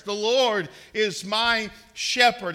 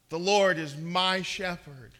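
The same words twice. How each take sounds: First: Louder and slower, "Lord" leaned on hard; slow, ringing declaration with a heavy "Lord"; confident declaration. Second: Said in the usual way. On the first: Shown as a demonstration. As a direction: proclaim "The Lord is my shepherd" with full assurance, "Lord" heavy and falling. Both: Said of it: "say it with confidence and assurance".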